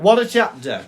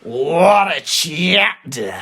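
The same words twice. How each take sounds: First: It is said calmly, without strong emotion. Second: It is said with intense venom and emotion.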